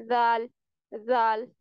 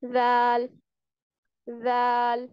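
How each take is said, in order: First: जाल said thick and heavy, the wrong way; heavy zaal demo. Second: जाल said softly and thin, the right way; soft thin zaal. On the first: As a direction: make जाल sound fat and heavy. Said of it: "जैसे जाल ... इस तरह नहीं पढ़ना". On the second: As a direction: ease into जाल gently. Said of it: "नरमी से पढ़ना है". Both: Shown as a demonstration.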